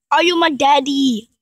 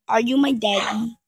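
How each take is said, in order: First: Loud mock question. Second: Said in the usual way. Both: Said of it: "repeated differently".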